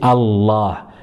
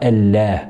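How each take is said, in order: First: The l is heavy, with a dark emphatic sound. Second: The l is thin, with a light plain sound. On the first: The speaker calls it right. "Elle sera emphatique de temps en temps, surtout avec le mot Allah. Hein, on dit Allah" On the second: The speaker calls it wrong. "on ne dira pas Allah"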